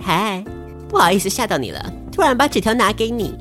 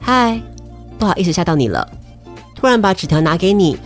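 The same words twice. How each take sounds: First: It is said in a smarmy, greasy tone. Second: It is said in a plain, ordinary tone.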